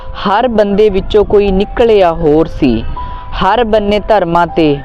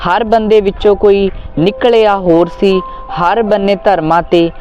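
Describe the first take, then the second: No difference in how they are said.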